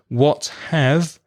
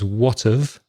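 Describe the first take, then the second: First: The word 'have' is said in full. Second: The word 'have' is reduced to a weak 'of'. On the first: "what have becomes what of" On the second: "The have becomes very, very weak"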